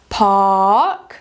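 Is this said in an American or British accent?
British. A British accent with a longer vowel. "Em britânico ele vai ficar mais longo do que o americano"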